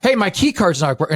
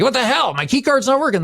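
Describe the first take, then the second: First: Raised-pitch complaint, only a touch annoyed; retold front-desk gripe, anger held back; mildly angry. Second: Mock-irate customer, pitch jumping up; all angry. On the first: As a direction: open with a firm, mildly irked complaint. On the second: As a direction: flare up in exasperated complaint. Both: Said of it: "And I'm all angry".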